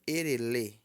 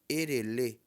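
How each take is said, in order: The two takes are said the same way.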